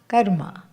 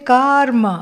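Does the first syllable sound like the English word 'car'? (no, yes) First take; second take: no; yes. First: The first syllable does not sound like 'car'. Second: The first syllable sounds like English 'car'. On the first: The speaker calls it right. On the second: The speaker calls it wrong.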